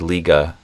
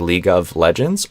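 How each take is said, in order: First: The V sound in 'of' is dropped. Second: The V sound in 'of' is pronounced. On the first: "you could delete the V sound and of if you want" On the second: "you can say League of Legends"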